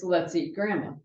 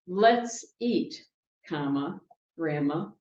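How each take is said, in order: First: "Let's eat grandma" run together in one breath; "Let's eat grandma" with no break before grandma; no pause. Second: Let's eat, then a clear pause before grandma; "Let's eat" and "grandma" split by a pause; pause at the comma. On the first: Preacher showing the line without the comma, running on. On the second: Preacher showing where the comma falls, pausing. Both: Shown as a demonstration. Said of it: "Without the comma".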